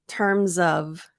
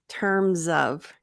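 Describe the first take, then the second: Both takes have the same delivery.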